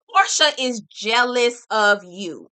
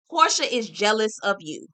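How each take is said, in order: First: Louder and slower, leaning on Portia; slow, loud, insistent, hitting Portia first; emphatic repeat. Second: Said in the usual way. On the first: Real, not acted. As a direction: hammer it home, word by word.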